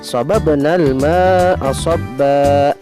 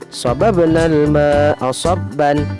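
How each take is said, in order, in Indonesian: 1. Kata terakhir berakhir dengan a panjang. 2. Kata terakhir berakhir dengan bunyi -an.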